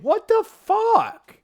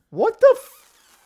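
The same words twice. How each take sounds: First: High, slow, drawn-out What the fuck; incredulous swear. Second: High, slow, breaking off before the swear; incredulous, cut off. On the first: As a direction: let the full curse out in disbelief. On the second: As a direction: bite back the curse in disbelief. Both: Real, not acted. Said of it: "I'm gonna say it".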